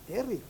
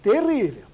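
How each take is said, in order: First: Said in the usual way. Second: Much louder, stressed terrível; Terrível said loud and emphatic. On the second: Real, not acted. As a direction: punch out Terrível with force.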